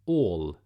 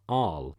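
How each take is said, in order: First: The vowel is said as an Å sound. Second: The vowel is said as a plain a. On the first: The speaker calls it right. "Yes, Aall, it makes an Å sound" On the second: The speaker calls it wrong.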